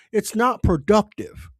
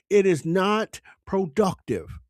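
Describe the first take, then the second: First: Said in the usual way. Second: "It is not productive" spelled out slowly, each word weighted; slow down and hammer "It is not productive"; slow emphatic repeat. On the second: Real, not acted.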